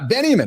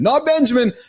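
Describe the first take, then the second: First: The name sounds like 'Benny Amin'. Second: The name sounds like ordinary 'Benjamin'. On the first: The speaker calls it right. "Benjamin, not Benjamin" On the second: The speaker calls it wrong.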